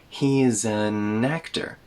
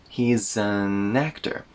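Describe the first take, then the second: No difference in how they are said.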